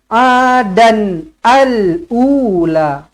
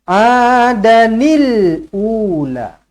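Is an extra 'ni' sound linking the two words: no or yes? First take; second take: no; yes. First: The words join without an added ni sound. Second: An added ni sound links the two words. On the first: The speaker calls it wrong. "kita tak boleh baca" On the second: The speaker calls it right. "Cara dia kita kena"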